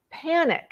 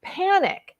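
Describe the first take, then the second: First: Echoed panic. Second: "panic" leapt up very high, then falling; a sudden high cry of "panic". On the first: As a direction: repeat "panic" high but easing. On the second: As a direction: throw "panic" up high and let it drop. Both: Real, not acted. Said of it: "in a fit of".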